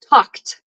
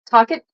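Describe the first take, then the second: First: The ending is said as a single sound. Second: The ending is said as an extra syllable. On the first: The speaker calls it right. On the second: The speaker calls it wrong.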